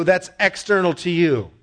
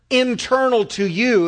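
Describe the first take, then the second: First: External hit and falling; stress on external. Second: Internal drawn out and slow, pitched up; slow stressed internal against external. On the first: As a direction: punch external as the contrast word. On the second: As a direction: lean hard on internal, then let it fall. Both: Shown as a demonstration. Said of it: "internal vs external contrast".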